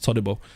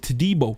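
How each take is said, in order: First: The name is said short and compact. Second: The name is said long and drawn out. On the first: The speaker calls it right. "I believe it's Todibo" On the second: The speaker calls it wrong. "elongating it to Todibo"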